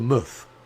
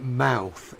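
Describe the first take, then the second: First: The vowel is a short, reduced sound. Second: The vowel is the full diphthong of 'mouth'. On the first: The speaker calls it right. "it just gets shortened to Muth" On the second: The speaker calls it wrong. "don't pronounce it mouth"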